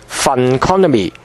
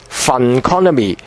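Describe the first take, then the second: The two takes are said the same way.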